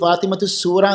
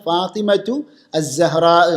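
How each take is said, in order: First: The name ends in 'Soora', with an s sound. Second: The name ends in 'Zahra', without an s sound. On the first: The speaker calls it wrong. "ആ സീനോടെ ഉച്ചരിക്കുക, അതും സൂറ എന്ന രൂപത്തിൽ" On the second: The speaker calls it right. "ശരിയായ ഉച്ചാരണം എന്താണ്?"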